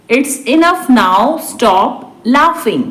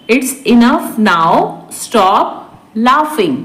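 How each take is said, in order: First: Said in the usual way. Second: Drawn-out teaching pace; slow repeat. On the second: Shown as a demonstration. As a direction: separate each word for learners. Teacher repeats translation word by word. (धीरे-धीरे, रुककर)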